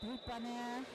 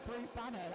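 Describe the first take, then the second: First: It is said with a slight French accent. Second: It is said with a British accent. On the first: The speaker calls it right. "you say it with a very, very slightly French accent" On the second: The speaker calls it wrong. "That sounds so British"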